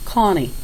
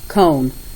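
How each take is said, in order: First: Short ah sound followed by an added ee syllable. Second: Long O sound with no final ee syllable. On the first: The speaker calls it wrong. "what the O was saying, ah, and then they're adding the E" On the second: The speaker calls it right. "But it should be K-own"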